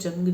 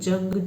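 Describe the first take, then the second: First: The word begins with a J sound. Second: The word begins with a J sound.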